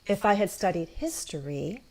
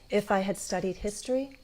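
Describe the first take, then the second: First: The voice falls then rises on 'history'. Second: The voice rises gently from low on 'history'. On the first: "I often do um, what's called like a, a fall rise" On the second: "Some people do a gentle rise, a low rise"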